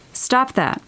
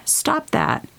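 First: Steadier "Stop that." with weight on "Stop", less high; firm repeat. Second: Sharp, high "Stop that." with stress on "Stop"; firm stop. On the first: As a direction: repeat it calmly but with no room to argue, leaning on "Stop". Repeats the command more steadily. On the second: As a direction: cut them off firmly, pitch jumping up on "Stop". Urging listener to stop self-shrinking. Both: Real, not acted.

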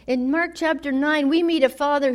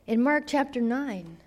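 First: "In Mark chapter nine" restated louder, with emphasis on "Mark"; louder restart. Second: Said in the usual way. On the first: Shown as a demonstration.

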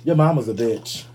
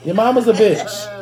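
First: Said in the usual way. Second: "Your mama's a bitch." drawn out, pitched up, stressing "a"; slower, higher insult. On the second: Shown as a demonstration. Roasting the Papa John's CEO with a slow, high repeat. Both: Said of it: "repeated insult".

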